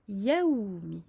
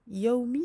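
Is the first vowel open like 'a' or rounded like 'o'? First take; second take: open; rounded. First: The first vowel is an open 'a'. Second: The first vowel is rounded like 'o'. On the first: The speaker calls it right. "il faut ouvrir la bouche et l'envoyer vers le ciel" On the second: The speaker calls it wrong. "c'est l'erreur fréquente. La fatha ne peut être euh, assimilée à un O"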